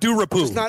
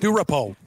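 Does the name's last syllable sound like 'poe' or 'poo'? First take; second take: poo; poe. First: The last syllable sounds like 'poo'. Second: The last syllable sounds like 'poe'. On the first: The speaker calls it wrong. "Not Durapo" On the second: The speaker calls it right. "Poe's good"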